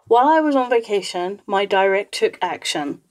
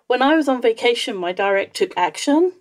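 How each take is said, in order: First: The voice is flat with no smile. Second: The voice sounds happy, as if smiling. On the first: You cannot tell if the action is good or bad. "If you say it like that and it's completely flat" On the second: The listener expects something positive next. "because I sound happy about it"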